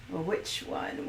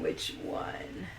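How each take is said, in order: First: Said in the usual way. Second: "Which one?" breathed, much lower and softer; whispered. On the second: Pretend. Repeats the question whispered.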